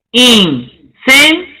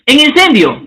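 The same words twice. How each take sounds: First: Incendio drawn out slowly, syllable by syllable; syllabified. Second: Said in the usual way. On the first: Shown as a demonstration. Teacher showing students the syllable split, slow and drawn out. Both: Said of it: "el silabeo".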